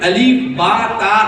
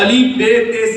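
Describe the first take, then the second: First: The letter names end in an 'a' vowel. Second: The letter names end in an 'e' vowel. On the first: The speaker calls it right. "इस तरह से पढ़ना चाहिए" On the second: The speaker calls it wrong. "ये गलत है"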